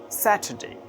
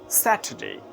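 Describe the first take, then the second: First: The middle syllable sounds like 'ta'. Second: The middle syllable sounds like 'ta'.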